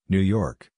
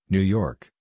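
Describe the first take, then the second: No difference in how they are said.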